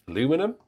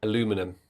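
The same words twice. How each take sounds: First: Aluminum said a-LOO-mi-num, puzzled, rising high; aluminum questioned with a high rise; puzzled repeat. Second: Aluminum said a-LOO-mi-num; aluminum with four syllables, American way. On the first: Real, not acted. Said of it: "What does that mean?". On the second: Retold or imitated.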